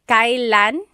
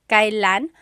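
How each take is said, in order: The two takes are said the same way.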